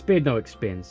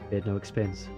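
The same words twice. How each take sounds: First: It is said in a bragging, boastful tone. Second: It is said in a somber, forced-happy tone.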